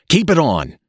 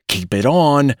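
First: Much higher, louder urgent repeat; hurried, more urgent. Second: Higher, louder hurried plea. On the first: Father urgently stopping his son undressing, higher and louder. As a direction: push harder the second time. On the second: Father stopping his son undressing, hurried and higher. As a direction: blurt it out in a hurry. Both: A narrator's reading. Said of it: "said Mister Button hurriedly".

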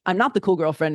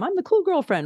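First: Said in the usual way. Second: Mock cool girlfriend. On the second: Mocking cool girlfriend persona.

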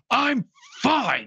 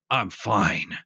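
First: High, strained mock yell; retold yell. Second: Said in the usual way. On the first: Optimus Prime yelling back at his worried comrades, high mock yell. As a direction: imitate a hero yelling back, pitched way up. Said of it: "he just yells at him". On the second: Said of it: "he says".

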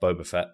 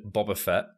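First: "Boba" said with a long "oh", BOH-buh; corrected pronunciation. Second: "Boba" said with an open "ah", like "Bobba"; short open first vowel in "Boba"; mispronounced name. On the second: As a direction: say "Boba" as BAH-buh. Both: Real, not acted. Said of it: "I keep calling it Boba".

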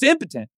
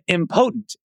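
First: "impotent" said IM-puh-tent; "impotent" as IM-puh-tunt; correct pronunciation. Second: "impotent" said im-POTE-nt, like "potent"; mispronounced impotent. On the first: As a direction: stress the first syllable of "impotent", reduced middle vowel. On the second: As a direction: stress POTE in "impotent" with a long o. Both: Retold or imitated. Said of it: "That's not how you say that".

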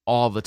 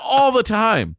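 First: Said in the usual way. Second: ALL THE TIME, high and loud; emphatic repeat. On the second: Real, not acted. Admitting to a friend how often he cries, emphatic ALL THE TIME. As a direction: belt out ALL THE TIME, falling at the end.

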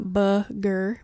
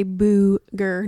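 First: "booger" with a short uh in the first syllable; booger with short vowel. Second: "booger" with a long oo, drawn out slowly; booger with oo sound. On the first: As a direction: say booger as BUH-ger. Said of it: "not booger". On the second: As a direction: say booger as BOO-ger. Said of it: "yes, I say booger". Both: Shown as a demonstration.

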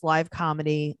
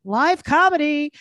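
First: Said in the usual way. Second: Higher, slow, showy announcer voice. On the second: Shown as a demonstration. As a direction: sell it like a big show. Repeats the plug in a new voice.

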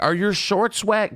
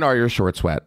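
First: Higher, mock-curious lady voice; lightly voiced nosy woman; imitating the lady. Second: Said in the usual way. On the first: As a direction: ask it like the nosy blonde. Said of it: "and she's like". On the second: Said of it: "repeats the quote".

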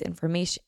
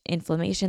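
First: "inflammation" slurred as "inn-uh"; tripped word. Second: Said in the usual way. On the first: Real, not acted. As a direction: garble "inflammation" mid-word.

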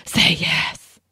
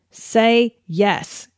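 First: Unvoiced, urgent whispered plea; fervent whisper. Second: Said in the usual way. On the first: Shown as a demonstration. Showing how the book's hero says it, fervent whisper. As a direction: whisper it fervently, all breath. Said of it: "That's a fervent whisper". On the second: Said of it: "he whispers fervently".

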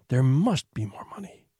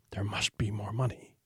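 First: Said in the usual way. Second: An eerie unvoiced whisper. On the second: A narrator's reading. The house itself whispering the secret phrase, hushed and unvoiced. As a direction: breathe the words like a secret voice in the walls. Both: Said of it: "a voice would start whispering".

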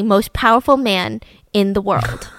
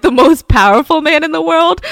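First: Said in the usual way. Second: Loud, higher disbelieving question; scoffing, raised-voice echo; incredulous. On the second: Real, not acted. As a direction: throw the boast back in disbelief. Host repeats the boast in disbelief.

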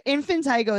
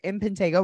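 First: "infantigo" with TIE in the third syllable; childish variant pronunciation. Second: "infantago" with TAY in the third syllable; standard variant pronunciation. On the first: Explaining the kid's word, "infantigo" said with a TIE. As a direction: say "infantigo" with a long I. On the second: Explaining the two names, "infantago" said with a TAY. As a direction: say "infantago" with a long A. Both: Shown as a demonstration. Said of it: "infantigo is when you get infantago when you're little".

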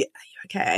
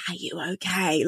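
First: Near-silent whisper, low and faint; silently mouthed. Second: Hushed, barely voiced check-in; mouthed question. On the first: Retold or imitated. Receptionist mouthing while he looks away, an almost soundless whisper. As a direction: imitate mouthing with barely any sound. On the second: Receptionist secretly checking on the customer, hushed and mouthed. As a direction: mimic mouthing it in secret, very softly. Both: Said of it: "she literally mouthed to me".

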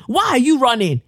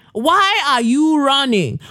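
First: High call after her. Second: Slow, drawn-out high call. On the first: Calling after Theresa May. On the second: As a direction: stretch the call out. Slower repeat of the call. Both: Pretend.

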